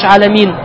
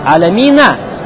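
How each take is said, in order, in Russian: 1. Слово заканчивается на согласный, без конечного гласного. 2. Слово заканчивается на конечный гласный звук. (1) "почему ты читаешь «аламин»" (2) "«Фатха». «Аламина»"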